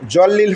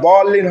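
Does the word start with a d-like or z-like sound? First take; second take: z-like; d-like. First: The word starts with a z-like sound. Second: The word starts with a d-like sound. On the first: The speaker calls it wrong. "জল্লিন হবে না" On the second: The speaker calls it right. "দলিন হবে"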